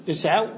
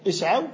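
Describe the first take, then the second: No difference in how they are said.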